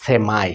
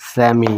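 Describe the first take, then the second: First: সেমাই ending in ai, se-MAI; সেমাই, American way; American pronunciation. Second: সেমি ending in a short ee; সেমি, British way; British pronunciation. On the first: Teacher modelling American সেমাই. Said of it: "American ইংলিশে উচ্চারণ হয়". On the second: Teacher modelling British সেমি. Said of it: "তো এটা উচ্চারণ হয়". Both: Shown as a demonstration.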